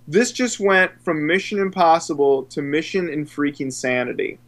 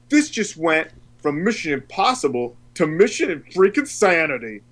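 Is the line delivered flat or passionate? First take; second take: flat; passionate. First: It is said flatly, with little energy. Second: It is said passionately, with lots of energy. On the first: The speaker calls it wrong. "When I say it so flat like that, I'm not getting the point across" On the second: The speaker calls it right. "he delivers it with this passion"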